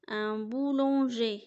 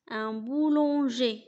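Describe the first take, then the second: First: \"ان بولونجي\" said once more, slow, falling end; repeated model word. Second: \"ان بولونجي\" said slowly in French, /ɑ̃ bulɑ̃ʒe/; slow model word. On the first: Teacher repeating boulanger for pupils, slow. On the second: Teacher modelling the word boulanger, slow. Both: Shown as a demonstration.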